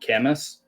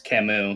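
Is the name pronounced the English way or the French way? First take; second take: English; French. First: The name is pronounced the English way. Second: The name is pronounced the French way. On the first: The speaker calls it wrong. "many people probably call him Camus" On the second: The speaker calls it right. "It's Camus because it's French"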